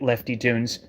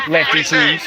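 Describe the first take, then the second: First: Said in the usual way. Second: Loud shout of the name "Lefty Tunes"; shouted callout. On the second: Real, not acted. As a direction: yell "Lefty Tunes" right at him. Calls out a commenter.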